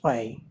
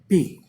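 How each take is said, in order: First: The vowel sounds like 'eye'. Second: The vowel sounds like 'ee'. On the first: "otherwise in English pi" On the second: "the Devanagari pronunciation? This would be P"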